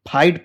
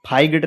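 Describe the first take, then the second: First: The word is said with no g sound. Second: The word is said with a g sound. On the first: The speaker calls it right. "तो इसको फाइट पढ़ते हैं" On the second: The speaker calls it wrong. "फाइगेटर नहीं पढ़ते हैं"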